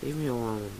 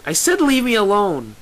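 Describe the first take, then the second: First: Soft, flat dismissal. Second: High, loud angry shout; fed-up, forceful yell; shouting back. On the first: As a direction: say it quietly with no life in it. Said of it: "she says flatly". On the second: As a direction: shout it through a closed door. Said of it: "Lyra shouts back". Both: A narrator's reading.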